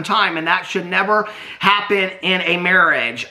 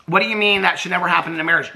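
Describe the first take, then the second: First: Said in the usual way. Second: Fast, disbelieving echo of "that should never happen in a marriage"; incredulous. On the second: Real, not acted. Vlogger mocking Brittany's quote with fast disbelief. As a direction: throw the words back in disbelief.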